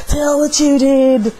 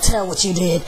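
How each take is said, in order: First: 1 demanding repeat. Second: Said in the usual way. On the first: Retold or imitated. Demon lady demands confession.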